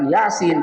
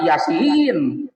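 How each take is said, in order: First: The i vowel is kept short. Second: The i vowel is drawn out long. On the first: The speaker calls it right. "bukan Yasin" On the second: The speaker calls it wrong. "bisa-bisa dibaca Yasin"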